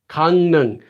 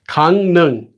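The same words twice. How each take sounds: No difference in how they are said.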